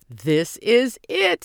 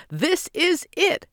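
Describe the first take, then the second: First: High, loud, slow and eager; can hardly stand still; barely contained excitement. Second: Much higher, slow and bursting; even more excited. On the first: Simon watching the limo arrive, thrilled. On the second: Simon repeating it, bursting with excitement. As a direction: squeal it out with delight. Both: A narrator's reading. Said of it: "barely able to stand still".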